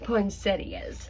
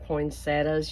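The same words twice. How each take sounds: First: It is said in the standard pronunciation. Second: It is said in a southern-style pronunciation. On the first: This is the pronunciation promoted as correct. "to pronounce it correctly" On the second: This is how the speaker grew up saying it. "reverting back to pronouncing it poinsettias ... it's a southern thing"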